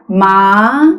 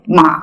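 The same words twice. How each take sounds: First: The pitch rises from mid to high. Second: The pitch drops sharply down. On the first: "이성의 경우는 레 또는 미 정도에서부터 솔까지 올라가게 되죠" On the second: "삼성의 경우는 좀 많이 뚝 떨어지게"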